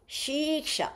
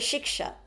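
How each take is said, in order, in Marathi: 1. पहिला स्वर दीर्घ उच्चारला जातो. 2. पहिला स्वर ह्रस्व ठेवला जातो. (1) "शिक्षा दीर्घ म्हटलेलं आहे" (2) "शिक्षा ह्रस्व पाहिजे ना"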